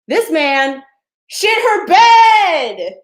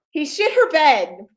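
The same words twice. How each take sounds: First: Slow, drawn-out shout, much higher and louder; punchline shout. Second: Said in the usual way. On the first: Acted. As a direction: drag out "shit her bed" in a big high yell. Punchline of the story.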